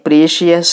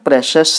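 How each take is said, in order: First: It is said with three syllables, pree-shee-us. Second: It is said with two syllables, presh-us. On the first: The speaker calls it wrong. "చాలామంది దీనిని ప్రీషియస్ అంటూ ఉంటారు" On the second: The speaker calls it right. "దీని pronunciation ప్రెషస్ అనాలండి"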